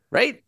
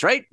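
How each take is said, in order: First: "Right?" repeated much higher, rising; prompting for agreement. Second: Said in the usual way. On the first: Real, not acted. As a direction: push "Right?" up as a questioning nudge. Prompting silent co-host to agree.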